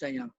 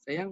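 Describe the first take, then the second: First: It is said in a soft, coaxing, pampering tone. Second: It is called out to get someone's attention. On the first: The speaker is being affectionately clingy. "Ah ini manja" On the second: The speaker is summoning someone to come over. "Oh panggil orang eh"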